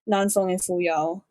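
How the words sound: The names are said with English-style pronunciation. "if I were to say it in a more English way"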